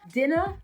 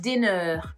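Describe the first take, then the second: First: The ending is a short, light uh sound. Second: The ending is a strong, drawn-out er sound. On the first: The speaker calls it right. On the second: The speaker calls it wrong.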